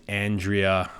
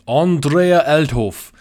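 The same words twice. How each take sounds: First: Said in the usual way. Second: The name drawn out slow in a louder, higher mock German accent. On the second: Vlogger naming the German head brewer in a German accent. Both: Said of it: "I don't know why I'm saying it in that accent".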